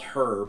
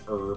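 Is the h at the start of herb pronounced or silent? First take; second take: pronounced; silent. First: The word begins with an audible h sound. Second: The word begins with a vowel, h silent. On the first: "I'll put the emphasis on the H" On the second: "they will not like me doing that"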